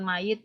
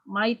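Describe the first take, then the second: First: A g sound is pronounced inside the word. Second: No g sound is pronounced inside the word. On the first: The speaker calls it wrong. "Bukan might ya" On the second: The speaker calls it right. "G-nya kan gak usah dibaca"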